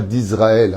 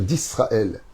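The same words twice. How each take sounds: First: The s is pronounced as a buzzing z. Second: The s is pronounced as a hissing s. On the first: The speaker calls it wrong. "Arrêtez avec ce Z que vous mettez dans la prononciation, qui est archi faux" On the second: The speaker calls it right. "on dit la terre d'Israël"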